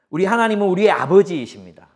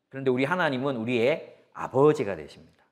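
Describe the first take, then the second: First: 하나님은 proclaimed louder and higher; preacher booming the line back to the congregation; loud proclamation. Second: Said in the usual way. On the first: Shown as a demonstration. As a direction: announce 하나님은 like a declaration to the church. Statement repeated as proclamation.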